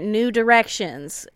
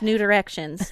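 First: It is said at a normal, unhurried speed. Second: It is said very quickly, run together.

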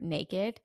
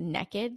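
First: The first vowel sounds like 'nay'. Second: The first vowel sounds like 'neck'.

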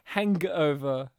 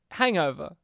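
First: The G sound is strongly emphasized. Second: The G sound is said plainly.

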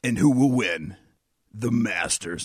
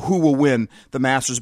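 First: It is said in a dramatic movie-trailer voice. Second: It is said in a plain speaking voice.

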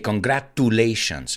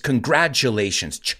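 First: The middle t is a plain T sound. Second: The middle t sounds like CH or J. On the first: The speaker calls it wrong. "a lot of people mispronounce it. They say congratulations" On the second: The speaker calls it right. "It's almost like a CH or a J sound"

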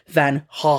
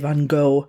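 First: The name is said with throaty Dutch sounds. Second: The name is said with an American pronunciation. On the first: "it is pronounced actually Van Gogh. It's very throaty" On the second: "Americans say Van Gogh"

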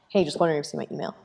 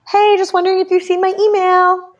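First: It sounds flat and curt. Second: It sounds cheerful and upbeat.

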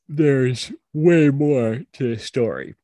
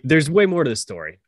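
First: The line is said in a flat, bored way. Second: The line is said with more energy and interest. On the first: The speaker calls it wrong. "don't sound so bored" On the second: The speaker calls it right. "Take it one more time"

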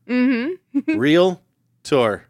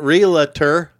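First: It is said with two syllables, 'real-tor'. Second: It is said with an extra syllable, 'real-uh-tor'. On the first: The speaker calls it right. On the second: The speaker calls it wrong.

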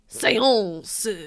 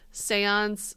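First: It is said with an exaggerated French accent. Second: It is said with a plain English accent.

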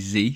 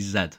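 First: It is the American way, zee. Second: It is the British way, zed.

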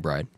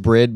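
First: The vowel is long, as in 'ride'. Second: The vowel is short, as in 'bid'. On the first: "but we say Bride" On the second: "It is Brid"

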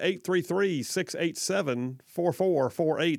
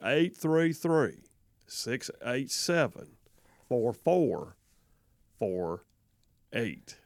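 First: The number is read quickly. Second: The number is read slowly.

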